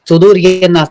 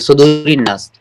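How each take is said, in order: First: A separate 'ye' syllable comes before 'naas'. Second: 'Sudoori' links straight into 'naas' without 'ye'. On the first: The speaker calls it wrong. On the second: The speaker calls it right.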